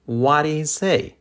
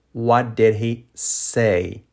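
First: Connected, higher-pitched example question; natural-speed model question. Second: Slow, word-by-word question; slow model question. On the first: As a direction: say it as one flowing question. Teacher models sentence at natural speed. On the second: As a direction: spell it out slowly for learners. Same question, slowed for learners. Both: Shown as a demonstration.

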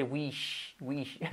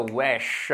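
First: "wish" with a tight ee-like i, tailing softer; difficult i vowel. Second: "wesh" with open e and long sh; E instead of I. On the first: Teacher shows why i is difficult, tight vowel. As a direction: squeeze "wish" towards weesh. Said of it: "una E en vez de una I". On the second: Teacher shows the easier pronunciation, e vowel. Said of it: "te salga una E en vez de una I". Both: Shown as a demonstration.

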